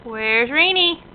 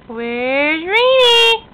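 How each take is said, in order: First: Said in the usual way. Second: High, slow, loud playful call; singsong peekaboo. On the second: Acted. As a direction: stretch it out teasingly. Peekaboo with toddler.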